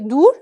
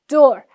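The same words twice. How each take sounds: First: The vowel sounds like 'oo' in food. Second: The vowel sounds like 'or' in four. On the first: The speaker calls it wrong. "We don't say door" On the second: The speaker calls it right. "we say door"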